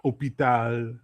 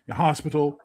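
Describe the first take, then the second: First: Hôpital said oh-pee-TAHL with no H; hôpital in French, silent H. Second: Said in the usual way. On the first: Shown as a demonstration. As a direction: drop the H: hôpital as oh-pee-tal.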